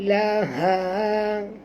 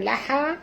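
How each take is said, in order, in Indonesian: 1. Bunyi h itu lembut dan dalam. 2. Bunyi h itu kasar dan tajam. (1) "dalam bunyi dia" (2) "jangan baca laha"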